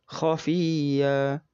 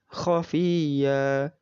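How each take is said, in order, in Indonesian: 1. Kata ini berakhir dengan vokal yang dipanjangkan. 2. Kata ini berakhir dengan vokal yang dipanjangkan.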